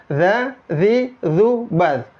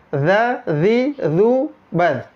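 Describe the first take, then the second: No difference in how they are said.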